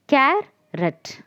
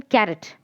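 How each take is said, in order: First: "Carrot" broken as car, pause, rot; higher "Carrot" in two separate beats, car and rot; split into syllables. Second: Said in the usual way. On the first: Shown as a demonstration. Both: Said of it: "here we have two syllables".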